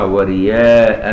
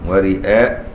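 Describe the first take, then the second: First: A plain y sound replaces the glottal stop. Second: A glottal stop is heard in the middle.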